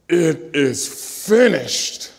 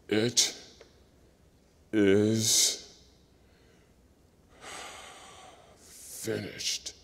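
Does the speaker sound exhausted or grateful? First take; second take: grateful; exhausted. First: It is said in a grateful, thankful tone. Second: It is said in a tired, exhausted tone. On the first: The speaker is thankful the work was accomplished. "out of a grateful realization that God was doing his work through him" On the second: The speaker is worn out and spent. "out of exhaustion and fatigue"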